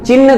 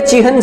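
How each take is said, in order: First: The n sound comes before the h. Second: The h sound comes before the n. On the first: The speaker calls it wrong. "चिन्ह गलत है" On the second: The speaker calls it right. "चिह्न सही है"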